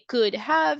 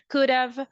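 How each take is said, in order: First: "Have" is said as a full separate word. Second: "Have" is reduced into a contraction. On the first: "When we write" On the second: "you will listen just the contraction"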